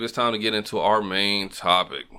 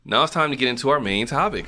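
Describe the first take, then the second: First: Bored. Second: Upbeat countdown host announcement; radio host voice. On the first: Real, not acted. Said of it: "Why you sound so bored?". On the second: Shown as a demonstration. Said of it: "There you go, Casey Kasem".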